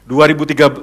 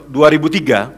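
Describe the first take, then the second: No difference in how they are said.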